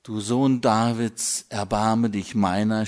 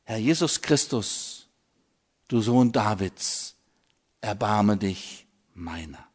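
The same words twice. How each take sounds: First: Blind man's cry. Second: Soft, falling prayer, sinking at "erbarme dich meiner"; quiet heart prayer. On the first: Retold or imitated. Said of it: "schrie der Blinde". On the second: Shown as a demonstration. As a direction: pray it inwardly, gently letting the voice drop. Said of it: "bete das Herzensgebet".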